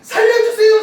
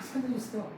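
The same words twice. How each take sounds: First: It is shouted loudly and urgently. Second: It is said quietly and weakly. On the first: The plea is desperate enough to be heard far away. The speaker calls it right. "정말 너무 급한 살려주세요, 살려주세요 막 소리 지르는 거예요" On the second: Nobody far away would hear the plea. The speaker calls it wrong. "이러면 다른 사람이 들을 수 있어요? 못 들어요"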